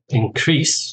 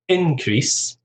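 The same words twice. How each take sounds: First: The stress is on the second syllable. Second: The stress is on the first syllable. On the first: It is the verb, to increase something. The speaker calls it wrong. "that pronunciation is actually the verb" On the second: It is the noun. The speaker calls it right. "stress on the first syllable"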